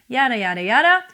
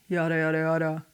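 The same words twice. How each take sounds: First: It is at a normal, medium speaking pitch. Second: It is at a lower pitch than normal. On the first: "which is what you usually talk in, like I am doing right now" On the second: "Or lower"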